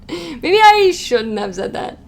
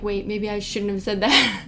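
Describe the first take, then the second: First: Slow, louder, higher mock regret; hammed-up second thoughts. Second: Said in the usual way. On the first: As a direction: draw it out in exaggerated, amused realisation. Repeats the regret, hamming it up, laughing.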